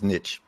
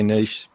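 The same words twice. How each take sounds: First: It is said not in an English/Australian way. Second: It is said the English/Australian way.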